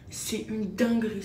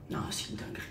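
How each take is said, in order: First: Said in the usual way. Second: Unvoiced, breathy whisper. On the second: Real, not acted. Souffle son avis sur le sérum. (chuchoté, tout bas)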